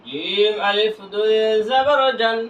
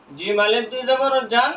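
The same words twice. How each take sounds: First: Slow, long-held syllables; measured recitation drill for learners; drawn-out spelling. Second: Said in the usual way. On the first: Shown as a demonstration. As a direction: stretch জিম and each name after it. Same spelling repeated drawn out.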